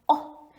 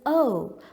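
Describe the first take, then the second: First: The vowel is short, like in frog. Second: The vowel is long, like the letter name. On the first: This is the sound the letter makes. "he is saying oh, meaning that it's the sound he's making" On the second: This is the letter's name. "His name is O"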